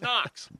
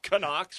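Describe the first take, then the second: First: The name is said as one syllable. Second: The name has an extra syllable before the n. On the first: The speaker calls it right. "It's Knox" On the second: The speaker calls it wrong. "It's not Canox"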